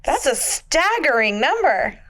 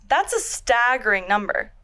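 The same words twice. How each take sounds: First: Customer service voice. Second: Slightly bright professional voice; polished work-call delivery; customer service voice. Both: Retold or imitated. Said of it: "What was that word you used earlier?".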